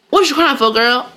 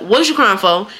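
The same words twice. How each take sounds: First: A hint of a chiding grandma; mild, raised-pitch mock scolding. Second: Said in the usual way. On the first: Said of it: "my grandma would be like". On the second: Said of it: "I ain't gonna do it".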